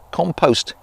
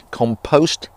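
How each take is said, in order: First: It is said the American way. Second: The same.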